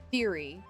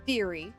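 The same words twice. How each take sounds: The two takes are said the same way.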